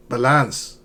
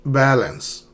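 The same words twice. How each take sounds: First: "balance" wrongly stressed on the second syllable. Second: "Balance" stressed on the first syllable. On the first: Teacher showing learners the mistake, "balance" stressed on its end. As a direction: weaken the first syllable of "balance" and lean on "-lance". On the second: Teacher modelling for learners, "Balance" with first-syllable stress. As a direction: punch the first syllable of "Balance", let the second fade. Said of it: "not balance". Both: Shown as a demonstration.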